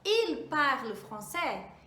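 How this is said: The voice rises at the end, like a question. It asks a question. "A mesma coisa seria se eu quisesse fazer a pergunta"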